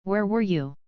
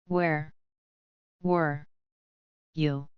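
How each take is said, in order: First: Sharp and flat. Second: Each word slow and spaced apart; deliberate pause after every word; slower. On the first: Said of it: "Batman's voice was sharp, flat, and heavy". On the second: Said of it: "slower this time". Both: A narrator's reading.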